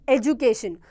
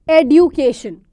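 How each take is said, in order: First: The middle consonant sounds like a 'j'. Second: The middle consonant sounds like a 'd'. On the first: This is the British pronunciation. "We pronounce this D as J, That is what we mean by British English" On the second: This is the American pronunciation. "in American English, this will be pronounced as it is written"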